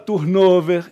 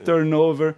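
First: It is pronounced with Portuguese-style sounds. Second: It is pronounced with English sounds and stress. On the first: The speaker calls it wrong. "ele fala turnover" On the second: The speaker calls it right. "em vez de"

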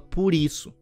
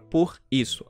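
First: The two words run together as one. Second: The two words are said separately. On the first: The speaker calls it right. "A gente junta tudo" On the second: The speaker calls it wrong. "A gente não fala assim"

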